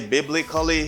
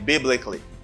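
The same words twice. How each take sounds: First: The ending has a vowel between k and l. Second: The ending has no vowel between k and l. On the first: The speaker calls it wrong. "Do not say biblically" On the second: The speaker calls it right. "say biblically"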